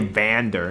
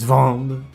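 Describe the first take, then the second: First: The final 'er' syllable is pronounced. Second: The final 'er' syllable is dropped. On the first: The speaker calls it wrong. "you don't say Vander" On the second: The speaker calls it right. "It's vand"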